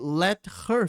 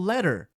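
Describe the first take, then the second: First: The words are said separately, with the h. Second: The h is dropped, so it sounds like 'letter'.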